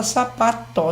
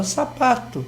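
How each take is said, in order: First: "sapato" with a full final O, "sapatô"; spelling pronunciation. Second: "sapato" with final O said as U, "sapatu"; everyday pronunciation. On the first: Professor echoing the co-host's example, "sapato" with full final O. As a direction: sound the last O of "sapato" as written. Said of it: "em vez de fala sapato". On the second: Professor showing how people say it, "sapato" ending in U. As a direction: end "sapato" in a light U sound. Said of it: "Essa troca de O por U". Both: Shown as a demonstration.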